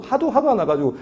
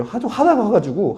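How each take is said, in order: First: Laughing. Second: Frustrated. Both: Shown as a demonstration.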